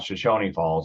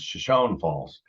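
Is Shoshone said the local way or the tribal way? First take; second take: tribal; local. First: The name is said like the tribe's name. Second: The name is said the way locals say it. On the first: The speaker calls it wrong. "It's not Shoshone Falls" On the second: The speaker calls it right. "it's Shoshone Falls"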